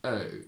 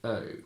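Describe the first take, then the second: First: The lips barely move at the vowel's end. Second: The lips barely move at the vowel's end.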